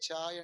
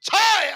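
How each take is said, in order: First: The word is said softly and quietly. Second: The word is said loudly and forcefully. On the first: It will not drive the dog away. "మౌనంగా" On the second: It drives the dog away. "గంభీరంగా"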